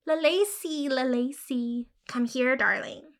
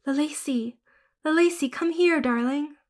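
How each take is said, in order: First: Croaking mockery. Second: Higher, coaxing call; calling the cat. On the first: Matilda mocking the girl's call to the cat. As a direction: mimic her cruelly in a croak. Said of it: "croaking, mocking". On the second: Acted. Girl crouching to call her ghost cat. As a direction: call her sweetly to come. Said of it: "I crouched down and called her".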